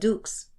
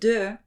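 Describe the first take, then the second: First: It ends with a sounded final x. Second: It ends on the vowel, no final consonant. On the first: The speaker calls it wrong. "not dux" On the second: The speaker calls it right. "de is D E U X"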